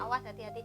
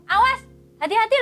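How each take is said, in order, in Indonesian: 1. Diucapkan dengan nada yang tenang dan biasa. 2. Diucapkan dengan nada yang keras dan kasar. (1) "itu padahal biasa ya kita ngomong" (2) "bukan kita ngomong awas hati-hati loh ya"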